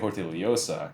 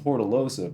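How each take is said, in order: First: The double L is said like an LY sound. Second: The double L is said as a plain L. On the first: This is how it is said in the Philippines. "In the Philippines, they would say Hortillosa because it's like L Y sound" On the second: This is how it is said in Kentucky. "in Kentucky we say the two L's like Hortilosa"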